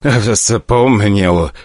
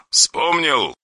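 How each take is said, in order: First: Shaky frightened admission; terrified director conceding; trembling. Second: Quiet, pointed question; soft cold menace. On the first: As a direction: answer while shaking all over. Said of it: "дрожа всем телом". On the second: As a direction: press him coldly. Caller demands. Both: Acted.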